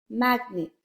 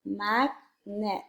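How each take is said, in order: First: Said in the usual way. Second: "Magnet" split slowly into mag, pause, net; syllable by syllable. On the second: Shown as a demonstration. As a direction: say "Magnet" as two separate syllables. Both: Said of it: "Blend and say the word".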